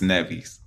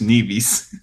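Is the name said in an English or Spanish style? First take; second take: Spanish; English. First: The name is said with a Spanish-style pronunciation. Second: The name is said with an English-style pronunciation. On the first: "My Spanish people want to tell me it's Nevis" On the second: "My English, Nevis"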